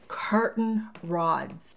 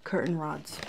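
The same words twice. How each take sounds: First: "curtain rods" stretched out slowly, word by word; slow emphatic reveal. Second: "Curtain rods" low and soft, quicker; quiet echo. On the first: Deliberate reveal, then repeated. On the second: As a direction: drop your voice to repeat "Curtain rods" softly. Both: Real, not acted.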